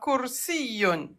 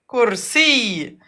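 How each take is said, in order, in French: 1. Le mot se termine par un son 'un' ajouté. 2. Le mot se termine sur un simple son 'ee'. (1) "À la fin, il y a deux. ضمتان" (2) "Et à l'arrêt, comment on va le prononcer?"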